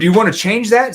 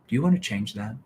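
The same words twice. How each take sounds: First: It sounds harsh, mean and aggressive. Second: It sounds gentle, empathetic and concerned. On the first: The asker is confronting the listener. The speaker calls it wrong. "that's mean, that's aggressive" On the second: The asker cares about the listener's problem. The speaker calls it right. "See the empathy in my voice, the concern"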